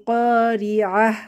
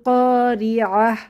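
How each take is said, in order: No difference in how they are said.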